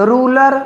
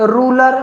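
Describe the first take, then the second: No difference in how they are said.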